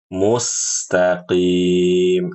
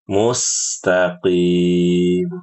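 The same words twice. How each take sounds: No difference in how they are said.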